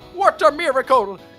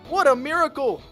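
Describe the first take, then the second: First: It is said in a put-on old man's voice. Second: It is said in the speaker's natural voice.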